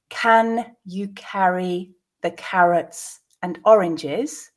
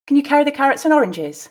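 First: The sentence is said slowly. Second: The sentence is said at natural speed. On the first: "I will read it once slowly" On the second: "at a more natural pace"

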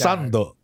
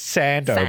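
First: It is said with the speaker's own pronunciation. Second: It is said with an Australian pronunciation. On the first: This is how the word is really said. "but like it's sando" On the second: This is how other people say it. "They pronounce it sando"

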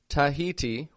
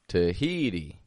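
First: All three syllables are said strong and full. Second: Only the middle syllable is strong; outer ones weak. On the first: The speaker calls it wrong. "I didn't say Tahiti. Tahiti with 3 strong sounds" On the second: The speaker calls it right. "it was rather weak, strong, weak"

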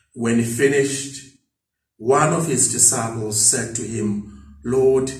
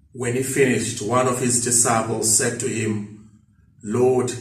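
No difference in how they are said.

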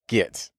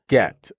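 First: The vowel sounds like the one in 'bit'. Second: The vowel sounds like the one in 'bet'. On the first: The speaker calls it wrong. "I wasn't supposed to say git" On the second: The speaker calls it right. "G-E-T is pronounced get"

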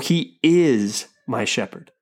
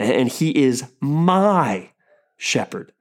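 First: The stress is on the word is. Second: The stress is on the word my.

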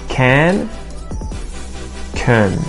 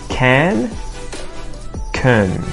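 The two takes are said the same way.

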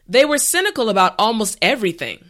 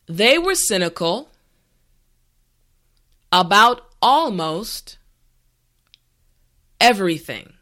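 First: The sentence is said at a natural speed. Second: The sentence is said slowly and carefully. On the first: "the last time at a regular pace" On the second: "this time repeat after me"

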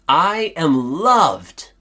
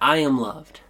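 First: It is said with the most energy. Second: It is said calmly with little energy.

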